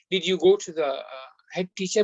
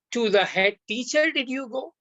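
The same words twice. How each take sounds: First: Said in the usual way. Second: "To the head teacher" fronted and lifted, then "did you go?" rising higher; stress on head teacher. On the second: Shown as a demonstration. Teacher showing Arabic emphasis to sisters in English, fronted stress. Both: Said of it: "But here he's saying".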